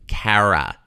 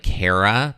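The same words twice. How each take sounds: First: The first vowel is a very wide open A. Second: The first vowel sounds like the vowel in care. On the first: The way people in New Jersey say it. "It's like so wide" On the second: The usual way outside New Jersey. "rather than like care, like Cara"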